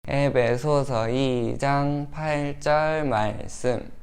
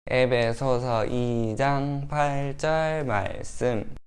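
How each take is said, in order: No difference in how they are said.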